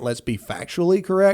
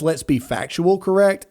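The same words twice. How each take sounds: First: Said in the usual way. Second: "factual correct", read with no -ly on factual; misworded reading. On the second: Retold or imitated. Host reading a critic's typo aloud, "factual" without the -ly. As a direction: read "factual" exactly as miswritten. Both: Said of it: "I'm assuming he meant".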